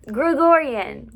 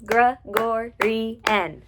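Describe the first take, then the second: First: Said in the usual way. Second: Gregorian very slowly in four beats, Gre-gor-i-an; split into syllables. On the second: Shown as a demonstration. Teacher counting out Gregorian for students, syllable by syllable. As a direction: pull Gregorian apart, one beat per syllable. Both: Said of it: "that's four syllables".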